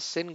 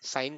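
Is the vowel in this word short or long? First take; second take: short; long. First: The word is said with a short 'i' vowel. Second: The word is said with a long 'ai' vowel. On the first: The speaker calls it wrong. "सिन गुना ना कर मेरा बच्चा" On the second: The speaker calls it right. "साइन कर लेना यार"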